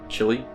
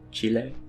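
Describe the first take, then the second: First: It has an American English pronunciation. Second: It has a more Spanish-like pronunciation. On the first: "I would pronounce it Chile as an American" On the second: "but I think it's more Chile"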